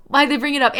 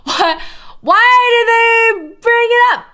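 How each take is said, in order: First: Said in the usual way. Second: Why did pitched high and loud in disbelief; exasperated question. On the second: Real, not acted. Streamer baffled by the Wikipedia writers, asks high and loud. Repeats question, first exaggerated.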